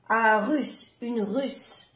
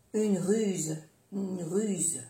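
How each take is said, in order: First: "russe" with a final unvoiced s; double S. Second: "ruse" with a final voiced z; soft Z. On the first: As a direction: end "russe" on a clear hiss. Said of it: "pronunciar bien las dos S". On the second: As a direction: end "ruse" on a falling buzz. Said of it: "se pronuncia como una Z suave". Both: Shown as a demonstration.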